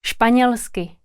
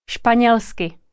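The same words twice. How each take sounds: The two takes are said the same way.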